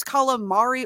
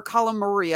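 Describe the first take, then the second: First: Calamari with the weight on the MAR; stress inside calamari. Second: Calamari with the weight moved toward the final "ee"; alternative stress on calamari. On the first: Unsure of a character's name, first guess: calamari stressed on MAR. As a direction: say calamari, leaning on the third syllable. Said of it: "I don't know where the emphasis is". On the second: Unsure of a character's name, second guess: calamari stressed toward the end. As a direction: say calamari, leaning on the last syllable. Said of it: "the emphasis is on the last letter". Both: Shown as a demonstration.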